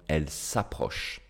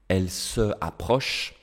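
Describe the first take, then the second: First: The vowel of se is dropped and joined on. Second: The vowel of se is kept before the verb. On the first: The speaker calls it right. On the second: The speaker calls it wrong.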